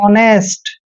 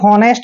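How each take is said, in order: First: The word begins with a vowel sound. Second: The word begins with an h sound. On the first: The speaker calls it right. "इसको पढ़ेंगे हम हमेशा ऑनेस्ट" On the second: The speaker calls it wrong. "कभी भी हॉनेस्ट नहीं पढ़ते हैं"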